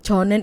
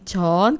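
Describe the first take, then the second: First: Both syllables are said in full. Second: The two syllables merge into one. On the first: "저는 itu nanti jadi 전" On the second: "전 ini singkatan dari 저는"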